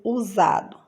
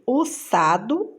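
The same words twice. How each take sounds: First: Said in the usual way. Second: "usado" with a hissed S in place of Z; S sound. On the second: Shown as a demonstration. Teacher offering the wrong option, "usado" with voiceless S. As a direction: say "usado" as u-SSA-do. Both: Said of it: "Som de Z".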